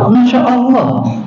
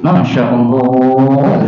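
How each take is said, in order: First: It sounds admiring and delighted. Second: It sounds exasperated and weary.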